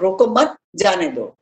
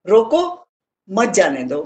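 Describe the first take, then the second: First: There is a pause right after roko mat. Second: There is a pause right after roko.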